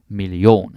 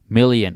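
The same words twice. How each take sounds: First: The stress is on the last syllable. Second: The stress is on the first syllable. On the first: This is how Danish speakers say it. "we put the stress on the ion" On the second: This is how English speakers say it. "You say million"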